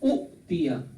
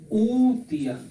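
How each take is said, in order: First: Two short vowels are split by a glottal catch. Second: One smooth long vowel with no glottal catch. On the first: This is the form the pattern predicts. "ये था उतिया" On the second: This is the form actually used. "झटका नहीं लगाएंगे"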